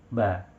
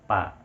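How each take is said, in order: First: The consonant sounds like a b. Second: The consonant sounds like a p. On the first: The speaker calls it right. "cukup ya atas dengan bawah dipertemukan saja" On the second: The speaker calls it wrong. "Kalau dirapatkan dia akan menjadi huruf P"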